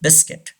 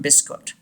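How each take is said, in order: First: BISCUIT as BIS-kit; silent U. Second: BISCUIT as BIS-kot; common mispronunciation. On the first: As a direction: say "biscuit" ending "-kit", U unspoken. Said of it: "U is silent". (biscuit में U silent, "बिस्किट") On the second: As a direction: end "biscuit" wrongly in "-kot". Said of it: "some people say this word". (biscuit को गलत "बिस्कॉट" बोलें) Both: Shown as a demonstration.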